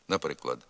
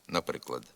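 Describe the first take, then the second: Both takes have the same delivery.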